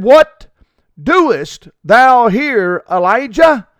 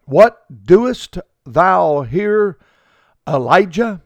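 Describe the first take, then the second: First: Higher, louder and slow, booming out; a voice calling. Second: Slow, drawn-out question from the Lord. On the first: A voice calls Elijah out of the cave, louder and slow. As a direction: call the question down like a voice from above. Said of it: "there came a voice unto him and said". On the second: The Lord asking Elijah in the cave, slow and drawn out. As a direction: let the Lord's question hang, slowly. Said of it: "he said unto him". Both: A narrator's reading.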